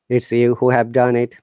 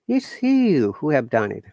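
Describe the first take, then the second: First: It is said in a flat, robotic monotone. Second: It is said with lively, surprised intonation. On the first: "straight tone or monotone" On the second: "exclamation. So I become surprised"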